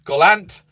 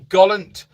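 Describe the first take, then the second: First: "Gollant" with a clear "ant" ending, like goll-ANT; full second vowel. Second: "Gollant" with a weak second vowel, like GOLL-unt; unstressed ending. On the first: Host retrying a viewer's hometown, "Gollant" ending in clear "ant". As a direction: open up the second syllable of "Gollant". Second try at place name. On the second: Host reading a viewer's hometown, "Gollant" with weak ending. Trying a place name two ways. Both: Shown as a demonstration.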